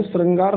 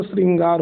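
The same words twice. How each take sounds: First: श्रृंगार said as "srangaar"; first vowel of श्रृंगार turned to a, "sa-rangaar"; wrong pronunciation. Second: श्रृंगार said as "sringaar"; first vowel of श्रृंगार is i, "sring-gaar"; correct pronunciation. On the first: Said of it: "श्रृंगार नहीं होता". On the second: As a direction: say श्रृंगार with a clear i after the r. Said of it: "श्रृंगार होता है". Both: Shown as a demonstration.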